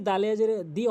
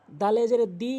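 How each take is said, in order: Both takes have the same delivery.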